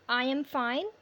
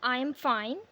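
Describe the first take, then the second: No difference in how they are said.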